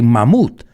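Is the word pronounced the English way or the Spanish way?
Spanish. It is said with a Spanish-style pronunciation. The speaker calls it wrong. "Like you say mammoth"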